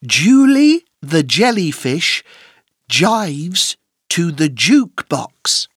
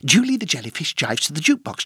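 First: The sentence is spoken at a normal pace. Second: The sentence is spoken at a very fast pace.

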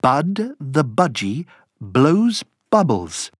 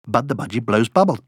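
First: The phrase is said at a slow pace. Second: The phrase is said at the quickest pace.

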